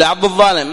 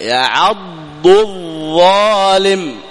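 First: Hurried يعض الظالم with the ض lost; rushed reading. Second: Very slow يعض الظالم, ض then ظ kept apart; slow careful recitation. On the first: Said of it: "ما تستطيع". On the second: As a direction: take يعض الظالم calmly, letter by letter. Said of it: "هكذا". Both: Shown as a demonstration.

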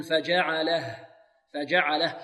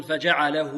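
First: "فجعله" ending in a still h, no vowel; correct stop on ha. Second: "فجعله" ending in a long -huu at the pause; wrong stop with waw. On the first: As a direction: stop on "فجعله" with bare -lah, waw dropped. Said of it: "نقول فجعله". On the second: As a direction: show the mistake, keep the waw on "فجعله". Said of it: "لا، خطأ،". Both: Shown as a demonstration.

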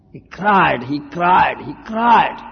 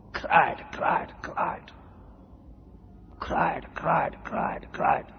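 First: Loud, emphatic shout of cried, cried, cried. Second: Soft hushed whisper of each cried. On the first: Preacher telling of the boy Dhruva crying, loud shouting. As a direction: call it out loud and hammering. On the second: Preacher echoing the insulted boy's weeping, hushed whisper. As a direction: breathe the words out in a whisper. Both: Acted.

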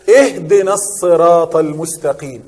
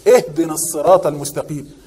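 First: Slow chanted recitation, اهدنا stressed and falling; Quran recitation. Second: Said in the usual way. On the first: Shown as a demonstration. Teacher reciting the verse to students, slow chanted recitation.

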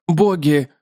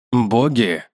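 First: Spider's statement. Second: Man's questioning echo. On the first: Spider names gods, man echoes. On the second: Man echoes the spider, puzzled. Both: Acted.

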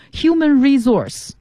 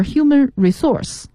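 First: Human resource with resource stressed on its first syllable; American pronunciation. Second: Human resource with resource stressed on its second syllable; British pronunciation. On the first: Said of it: "这是美式音的念法". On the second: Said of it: "是英音的念法". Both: Shown as a demonstration.

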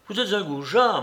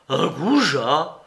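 First: "goujat" hit higher and falling; a lightly voiced insult landing on "goujat"; contemptuous insult. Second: Slow, rising "goujat?" in disbelief; a mild hurt echo of the insult; outraged echo. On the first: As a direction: spit out "goujat" with a downward snap. Larrier insults Soupe. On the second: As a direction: drag out "Un goujat?" as a shocked question. Soupe repeats the insult, outraged. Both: A narrator's reading.

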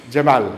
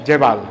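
Both takes have the same delivery.

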